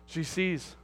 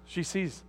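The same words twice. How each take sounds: The two takes are said the same way.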